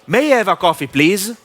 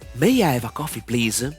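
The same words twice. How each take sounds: First: It is spoken loudly, with much air. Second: It is spoken quietly, with little air. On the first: "High volume" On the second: "Low volume"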